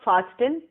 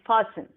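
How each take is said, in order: First: The T sound in the middle is pronounced. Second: The T sound in the middle is silent. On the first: The speaker calls it wrong. "It's not fasten" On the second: The speaker calls it right. "T is silent, it's fasten"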